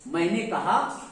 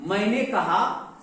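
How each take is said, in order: The two takes are said the same way.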